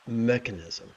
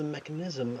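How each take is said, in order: First: The stress falls on the usual, standard syllable. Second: The stress falls on an odd, unexpected syllable. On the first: The speaker calls it right. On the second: The speaker calls it wrong.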